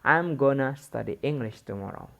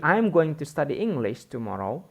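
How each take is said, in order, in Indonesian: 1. Going to digabung menjadi satu kata, gonna. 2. Going to diucapkan sebagai dua kata penuh. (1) "Kalian bisa mengucapkan gonna" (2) "Going to bisa kita gunakan menjadi gonna"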